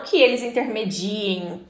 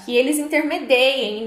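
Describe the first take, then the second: First: "intermediem" said as inter-me-DI-em, plain i in the stem and softer; "intermediem" spoken the mistaken way, no ei sound; the form to avoid, "intermediem" with a plain i; wrong form. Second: "intermediem" said as intermedeiem, with an ei sound in the stem; correct form. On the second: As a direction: stress the ei: inter-me-DEI-em. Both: Shown as a demonstration. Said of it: "não que eles intermediem".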